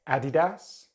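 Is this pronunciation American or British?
British. It is said with a British accent. "in British English"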